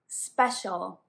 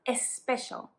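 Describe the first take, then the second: First: It begins directly with the s sound. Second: It begins with an added e vowel. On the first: The speaker calls it right. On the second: The speaker calls it wrong. "not especial"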